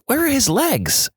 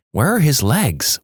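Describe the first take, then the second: First: High, panicked repeat of the question; panicked muttering. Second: Panicked muttering. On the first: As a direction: let the second "Where are his legs?" jump way up in alarm. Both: Retold or imitated. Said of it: "repeatedly muttering".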